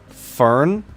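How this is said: The name is said with an American pronunciation.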